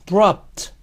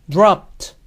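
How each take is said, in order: Both takes have the same delivery.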